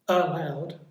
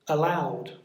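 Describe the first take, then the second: First: The stress is on the first syllable. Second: The stress is on the second syllable. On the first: The speaker calls it wrong. "It's not allowed" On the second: The speaker calls it right. "So it's on the second syllable"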